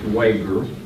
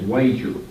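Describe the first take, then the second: First: The g is a hard g sound. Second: The g is a soft j-like sound. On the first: The speaker calls it right. "they pronounce it with a hard G" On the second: The speaker calls it wrong. "It looks like it's Wager"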